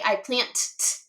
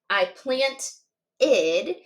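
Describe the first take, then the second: First: The ending is a plain t sound. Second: The ending is an extra id syllable. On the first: The speaker calls it wrong. "we wouldn't say I plant t" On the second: The speaker calls it right. "So if it ends in T or D, we hear id"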